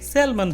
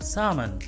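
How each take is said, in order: First: An 'l' sound is heard in the middle. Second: No 'l' sound is heard in the middle. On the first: The speaker calls it wrong. "ज्यादातर लोग इसे सैल्मन बोलते हैं, जो कि गलत है" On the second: The speaker calls it right. "इसका करेक्ट प्रोनाउंसिएशन होगा"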